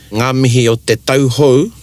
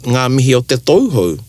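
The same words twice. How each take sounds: First: The word before hou has the au diphthong. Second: The word before hou has the ou diphthong. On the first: Happy New Year. The speaker calls it right. "you'd say" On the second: Happy New Bum. The speaker calls it wrong.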